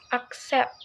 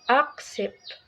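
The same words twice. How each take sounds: First: The stress is on the second syllable. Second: The stress is on the first syllable. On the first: The speaker calls it right. "the stress is on the second syllable" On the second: The speaker calls it wrong. "not accept"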